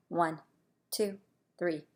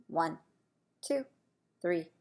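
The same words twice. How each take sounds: The two takes are said the same way.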